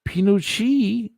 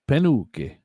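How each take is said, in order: First: It is said the common way. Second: It is said the Italian way. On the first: "Pinucci is what they say the pronunciation" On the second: "if you're Italian, you're going to pronounce it Penuche"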